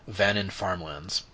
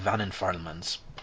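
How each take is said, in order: First: The words are spoken clearly and distinctly. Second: The words are mumbled and hard to make out. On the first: The speaker calls it right. "when said correctly" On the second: The speaker calls it wrong. "sometimes I just mumble"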